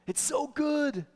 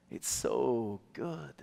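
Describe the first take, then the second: First: Much higher, delighted praise on good; high bright praise to a daughter; encouraging praise. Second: Slow, soft, lingering on so; quiet, drawn-out reassurance; slow soft affirmation. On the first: Retold or imitated. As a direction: beam it at a child. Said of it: "tell her". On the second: Shown as a demonstration. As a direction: let it settle slowly.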